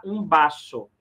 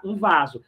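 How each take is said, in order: First: Um baço with a B at the start and a sharp S, baso; Spanish um baço, lips closed on the B. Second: Um vaso with a Portuguese V, said as vazo; the wrong way, vaso with a real V and a Z; Portuguese-style um vaso, V against the teeth; wrong V sound. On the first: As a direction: say baço as Spanish vaso, V turned to B. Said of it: "você vai pronunciar um baço". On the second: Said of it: "você não vai pronunciar um vaso". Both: Shown as a demonstration.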